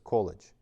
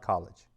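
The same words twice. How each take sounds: First: It is pronounced as the Russian word. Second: It is pronounced as the English word. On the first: The speaker calls it right. "the word college in Russian is" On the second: The speaker calls it wrong.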